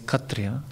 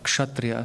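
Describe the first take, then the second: First: The word has a vernacular Bengali pronunciation. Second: The word has its Sanskrit pronunciation. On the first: "pronounce Sanskrit in vernacular Bengali" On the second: "instead of uh"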